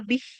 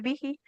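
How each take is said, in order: First: The word ends on the consonant h. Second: The word ends on a long i vowel. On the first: The reading stops at this word. The speaker calls it right. "kalau wakaf jadi pendek, jadi sukun bih" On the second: The reading continues past this word. The speaker calls it wrong. "nggak boleh bihi"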